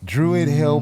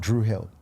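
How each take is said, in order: First: The first word has two full syllables. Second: The first word is cut to one syllable. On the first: This is the park's full official name. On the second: This is how locals in the inner city say it.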